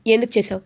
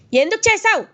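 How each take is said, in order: First: Said in the usual way. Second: Much higher, loud repeated demand. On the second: Retold or imitated. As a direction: explode on the second asking. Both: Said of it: "అని గట్టిగా అడుగుతాడు గగన్".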